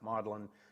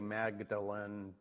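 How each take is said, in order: First: It is said the British way, like maudlin. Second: It is said the American way, as spelled.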